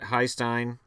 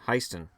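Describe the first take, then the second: First: The name ends with a 'stine' sound. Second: The name ends with a 'ston' sound. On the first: The speaker calls it wrong. "I always said Heistein" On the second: The speaker calls it right. "It's Heiston"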